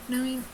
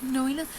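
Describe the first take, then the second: No difference in how they are said.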